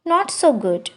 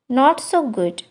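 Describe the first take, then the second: No difference in how they are said.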